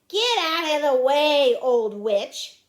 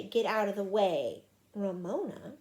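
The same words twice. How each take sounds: First: Loud, brusque order; yelled. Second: Said in the usual way. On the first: Acted. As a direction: yell at someone blocking your path. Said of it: "yelled at Ramona". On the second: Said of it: "He didn't say".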